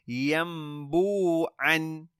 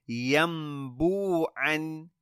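Both takes have the same delivery.

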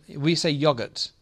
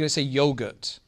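First: It is said in a British accent. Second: It is said in an American accent. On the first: "we say" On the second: "In America, they say"

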